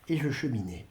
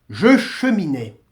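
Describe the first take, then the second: First: Said in the usual way. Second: « Je cheminais » repris plus fort, appuyé sur « Je »; répéter « Je cheminais » avec force; insistance. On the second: Shown as a demonstration. (« Je cheminais » martelé)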